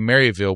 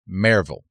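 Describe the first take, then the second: First: The name is said with an outsider's pronunciation. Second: The name is said with the local pronunciation. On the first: The speaker is not from the area. The speaker calls it wrong. "if you say Maryville, we know that you're not from there. Outsider" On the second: The speaker is from East Tennessee. The speaker calls it right. "You are East Tennessean if you pronounce that city as Maryville"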